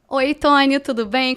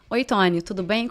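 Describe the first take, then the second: First: A flirty, childlike, playful tone of voice. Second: A plain, neutral, adult tone of voice.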